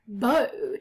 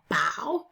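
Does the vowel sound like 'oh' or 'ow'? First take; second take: oh; ow. First: The vowel is not the ow sound. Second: The vowel is the ow sound. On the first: "but it also looks like bow" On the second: "bow is a tricky one because that's take a bow"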